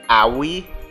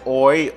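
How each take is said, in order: First: The name starts with an 'ah' sound. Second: The name starts with an 'oh' sound. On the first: The speaker calls it right. "someone says o- A O I is pronounced Aoi" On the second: The speaker calls it wrong. "I'm pronouncing A O I as Oi, O I"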